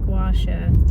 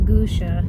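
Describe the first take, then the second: First: The first syllable is a 'gwah' sound. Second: The first syllable is a plain 'goo' sound. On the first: The speaker calls it right. "I know that now. It's gua sha" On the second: The speaker calls it wrong. "I had said it wrong earlier. It's not gusha"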